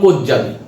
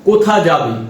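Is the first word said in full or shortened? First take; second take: shortened; full. First: The first word is shortened in quick speech. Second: The first word is said in full, unhurried.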